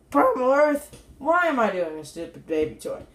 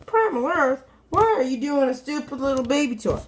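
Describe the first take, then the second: First: Mock yourself asking the same question; self-questioning. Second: Higher, protesting mock viewer; questioning viewer. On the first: Reviewer asking himself about the toy, mock self-questioning. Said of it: "And I'd be saying". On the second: Viewer challenging the reviewer about the toy, mock complaint. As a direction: put on a higher voice for the doubting viewer. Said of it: "you may be saying to yourself".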